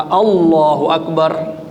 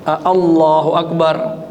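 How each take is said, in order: No difference in how they are said.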